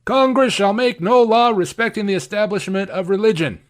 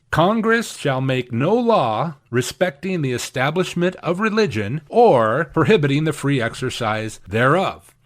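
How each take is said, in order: First: Higher, emphatic read of the first clause; mock emphasis as the critics give it; emphasizing first clause. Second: Slow, even reading of the full clause; solemn recitation of the amendment. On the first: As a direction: lean hard on "Congress shall make no law". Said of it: "people really only want to emphasize the first clause". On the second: Shown as a demonstration. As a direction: give both clauses equal weight. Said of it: "here is what the First Amendment actually says".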